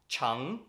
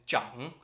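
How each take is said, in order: First: The word begins with a 'ch' sound. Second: The word begins with a 'zh' sound. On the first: It means long. "You've got chang, which means long" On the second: It means to grow or elder. "and zhang, which means to grow or elder"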